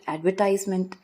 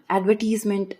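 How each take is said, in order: First: Advertisement stressed on TISE, ad-ver-TIZE-ment; American pronunciation. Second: Advertisement stressed on VER, ad-VER-tis-ment; British pronunciation. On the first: Listing differences for listeners, advertisement the American way. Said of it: "Same are the differences between". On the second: Listing differences for listeners, advertisement the British way. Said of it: "Same are the differences between advertisement". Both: Shown as a demonstration.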